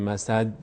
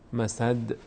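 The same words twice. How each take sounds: First: The final d stops dead with no bounce. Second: The final d ends with a slight echoing bounce. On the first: The speaker calls it wrong. "نمیگیم مسد" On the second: The speaker calls it right. "یک لرزش کوچکی داره"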